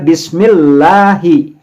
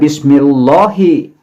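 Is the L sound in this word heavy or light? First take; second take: light; heavy. First: The L is thin, with lips drawn back. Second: The L is heavy, with lips pushed forward. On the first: The speaker calls it right. "Jadi membacanya bismillahi" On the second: The speaker calls it wrong. "Tidak membaca bismillahi seperti pada tafhim"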